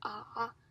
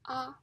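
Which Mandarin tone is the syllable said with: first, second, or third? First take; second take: third; first. First: It is said with the third tone. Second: It is said with the first tone. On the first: "the third tongue" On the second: "the first tongue"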